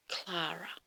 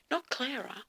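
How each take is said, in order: First: "Clara" with an open "ah", as in Klah-ra; "Clara" with a broad first vowel; original pronunciation. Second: "Clara" said like Claire-a; "Clara" with an "air" first vowel; contrasted pronunciation. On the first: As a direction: say "Clara" as KLAH-ra, softer and deliberate. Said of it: "changed the spelling and made it". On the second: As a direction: say "Clara" as KLAIR-a, higher, rejecting it. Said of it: "changed the spelling and made it Clara". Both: Shown as a demonstration.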